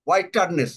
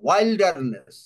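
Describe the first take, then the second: First: It is said without an 'l' sound. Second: It is said with a clear 'l' sound. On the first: The speaker calls it wrong. "হোয়াইটারনেস না" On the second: The speaker calls it right. "উচ্চারণ ঠিক মতন করতে পারছো না।"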